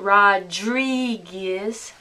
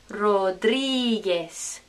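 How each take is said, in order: First: It is said with an anglicized English pronunciation. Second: It is said with a Spanish pronunciation. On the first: The speaker calls it wrong. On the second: The speaker calls it right. "Remember this? Ge"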